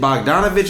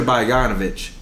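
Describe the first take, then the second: First: Unsure cohost tries "Bogdanovich" as bog-DAHN-uh-vitch, with D. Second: "Bogdanovich" with a gliding YAHN in the middle. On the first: Host asking how the Kings player's name goes, Bogdanovich with D. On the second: Host offering the other way to say the name, Bogdanovich with Y. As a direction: say "Bogdanovich" as bog-YAHN-uh-vitch, D turned to Y. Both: Shown as a demonstration. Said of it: "is it Bogdanovich or Bogdanovich".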